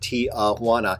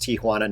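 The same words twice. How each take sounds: First: The city name has an anglicized mispronunciation. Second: The city name has its local Spanish pronunciation. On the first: The speaker calls it wrong. "not Tijuana" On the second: The speaker calls it right. "I knew it was pronounced Tijuana"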